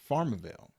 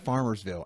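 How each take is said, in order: First: It is said without an s before ville. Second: It is said with an s before ville. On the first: This is how the locals say it. "they say Farmerville" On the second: This is how it is written. "they don't say Farmersville, and it's written out as plain as day"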